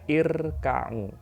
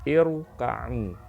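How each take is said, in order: First: The r is pronounced light and thin. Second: The r is pronounced heavy and thick. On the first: The speaker calls it wrong. "bukan irka'u. Jadi keliru" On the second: The speaker calls it right. "harus dibaca tafkhim atau tebal. Irka'u itu ya"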